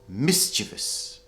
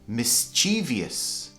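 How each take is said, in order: First: The stress falls on the first syllable. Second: The stress falls after the first syllable. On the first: The speaker calls it right. "actually it should be mischievous" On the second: The speaker calls it wrong. "A lot of native speakers mispronounce this"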